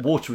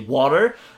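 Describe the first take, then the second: First: Water is said in a British accent. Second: Water is said in an American accent.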